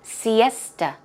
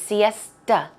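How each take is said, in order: First: The final vowel is a reduced 'uh' sound. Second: The same.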